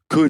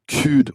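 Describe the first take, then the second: First: The word has an English-sounding vowel. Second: The word has a French-accented vowel. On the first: The speaker calls it right. "producing English sounds" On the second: The speaker calls it wrong. "instead of"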